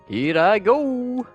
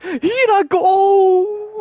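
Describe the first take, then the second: First: It is said in a plain, normal voice. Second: It is said in Cait Sith's character voice.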